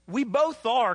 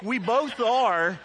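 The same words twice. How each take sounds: First: Loud declaration. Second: Slow, loud and drawn out, word by word; slow emphatic repeat. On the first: Preacher repeats for emphasis. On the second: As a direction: drag out we both are to drive it home. Slower repeat of same words. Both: Acted.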